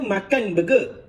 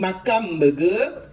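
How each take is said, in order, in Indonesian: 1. Perkataan itu berakhir dengan bunyi n yang biasa. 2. Bunyi n menjadi bunyi m pendek yang biasa. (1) "Asalnya makan burger" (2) "tukar ma- makan jadi makam burger"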